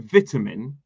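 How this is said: British pronunciation, first syllable with a short 'i'. "we say vitamin"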